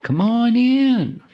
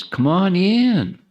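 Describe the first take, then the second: First: Very high, slow, drawn-out Texas twang; Texas drawl. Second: Slow, high, drawn-out Texas welcome; Texas drawl. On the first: Texas accent calling guests in from the back. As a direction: sing out a big Texan welcome. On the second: Texas accent welcoming latecomers to come forward. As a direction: stretch it out like a friendly Texan. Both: Retold or imitated. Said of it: "As they say in Texas".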